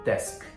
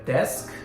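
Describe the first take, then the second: First: The word ends sharply on the k consonant. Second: The same.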